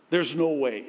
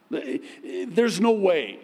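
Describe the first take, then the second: First: Said in the usual way. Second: Slow, drawn out, "no" stressed and higher; emphatic, slow. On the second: Shown as a demonstration. Preacher stressing impossibility, slow "no" emphasis. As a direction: lean hard on "no" in "There's no way".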